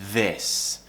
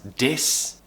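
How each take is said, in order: First: It starts with a th sound between the teeth. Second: It starts with a d sound instead of th. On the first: The speaker calls it right. "the tongue has to go between the teeth, th, like this" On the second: The speaker calls it wrong. "pronounce the word this as dis"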